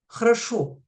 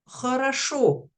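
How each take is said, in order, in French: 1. Les voyelles non accentuées sont encore plus affaiblies. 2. Les voyelles non accentuées sont affaiblies vers A. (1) "voire même хорошо" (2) "mais хорошо"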